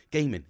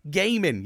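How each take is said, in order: First: Said in the usual way. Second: Higher, louder "Gaming"; "Gaming" called out loud as the penny drops; triumphant realization. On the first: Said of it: "it clicked". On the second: Retold or imitated. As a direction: punch "Gaming" like an answer shouted out. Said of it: "it clicked because I was like".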